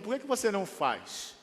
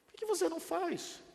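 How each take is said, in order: First: Said in the usual way. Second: High incredulous plea; high pleading repeat. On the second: Acted. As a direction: ask again much higher, almost squeaky. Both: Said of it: "repeated challenge".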